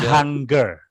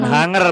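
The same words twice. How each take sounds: First: The g sound after ng is clearly pronounced. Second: The g sound after ng is left silent. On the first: The speaker calls it right. "G-nya dibaca" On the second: The speaker calls it wrong. "Bukan hunger bacanya"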